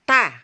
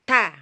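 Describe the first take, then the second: The two takes are said the same way.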